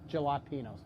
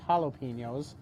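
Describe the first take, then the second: First: It is pronounced the regional Montana way. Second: It is pronounced the common, widespread way. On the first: "That's how you pronounce them in Montana" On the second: "the more common pronunciation is"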